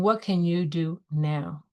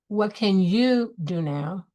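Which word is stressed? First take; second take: now; you. First: The stress falls on the word now. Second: The stress falls on the word you. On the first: Focus on taking action immediately. "and taking action now" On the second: Focus on what you yourself can own. "on what you can own"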